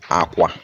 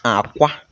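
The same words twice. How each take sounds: First: Both syllables are on a low tone. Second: The first syllable is low, the second high. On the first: It means bed. "We are using low and low tone" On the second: It means egg. "We are using low and high tone"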